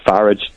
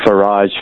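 First: "Farage" said FARR-ij; Farage like garage. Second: "Farage" said fuh-RAHZH; French-style Farage. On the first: Listener giving the second option, Farage as FARR-ij. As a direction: stress the front of "Farage", ending in ij. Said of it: "Farage rhymes with garage". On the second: Listener raising the naming question, Farage as fuh-RAHZH. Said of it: "the more French pronunciation". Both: Shown as a demonstration.

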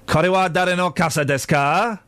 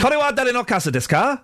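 First: Moderately higher, more measured Japanese question; repeated Japanese phrase. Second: High, eager Japanese question; showing off Japanese phrase. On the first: Host repeats it for puzzled co-host, measured questioning. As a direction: repeat the phrase carefully, rising at the end. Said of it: "Whose umbrella is this?". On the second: Host shows off his Japanese phrase, high and questioning. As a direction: recite the phrase high with a rising end. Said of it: "I was saying that phrase as often as I could". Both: Shown as a demonstration.

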